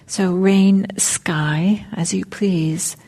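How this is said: The word sky carries strong emphasis. "I'm putting the emphasis on sky"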